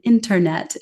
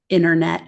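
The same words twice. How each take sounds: First: The middle T is clearly pronounced. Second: The middle T is dropped or softened. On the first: "careful to say ... internet" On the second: "instead of"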